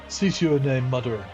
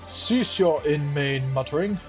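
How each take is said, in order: First: It is said in the intended character voice. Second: It is said in a mismatched character voice.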